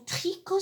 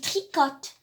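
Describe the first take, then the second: First: The final t of the word is silent. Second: The final t of the word is sounded. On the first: The speaker calls it right. "on ne les lit pas" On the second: The speaker calls it wrong. "Est-ce que j'ai dit tricote"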